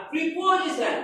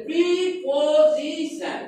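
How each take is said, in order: First: Said in the usual way. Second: "preposition" slowly as pre, পো, জি, শন; four syllables apart. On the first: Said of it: "এর চারটি syllable আছে". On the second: Shown as a demonstration. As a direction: draw out each of the four beats in "preposition". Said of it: "এখানে চারটি সিলেবলে ভাগ হচ্ছে".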